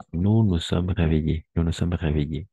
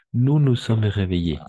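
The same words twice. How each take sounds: First: Said in the usual way. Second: Louder, higher model sentence; emphatic model. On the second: Shown as a demonstration. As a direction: project it for the class to repeat. (frase modelo dicha fuerte y alta) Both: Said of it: "Pero al escrito, atención".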